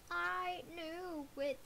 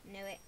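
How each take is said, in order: First: Slow, stretched gloating; drawn-out smug. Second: Said in the usual way. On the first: Real, not acted. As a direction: savor the told-you-so. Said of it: "I'm the best guesser ever".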